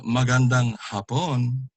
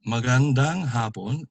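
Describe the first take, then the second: First: MAGANDANG HAPON with stressed, long PON; final-syllable stress. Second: MAGANDANG HAPON, long HA in HAPON; first-syllable stress. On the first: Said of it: "then you're saying a beautiful Japanese". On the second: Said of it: "is good afternoon". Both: Shown as a demonstration.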